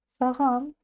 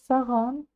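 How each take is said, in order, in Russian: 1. Средний согласный — звонкий звук g. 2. Средний согласный — звонкий звук g.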